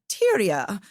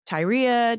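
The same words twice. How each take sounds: First: The name is said in a British accent. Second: The name is said in a non-British accent.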